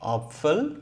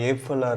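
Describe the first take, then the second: First: The first vowel sounds like 'ah'. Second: The first vowel sounds like 'eh'. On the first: The speaker calls it right. "ஆ sound use பண்ணணும்" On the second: The speaker calls it wrong. "ஏஃபலா இருக்கணுமான்னு நமக்கு கன்ஃபியூஷனே வேணாம்"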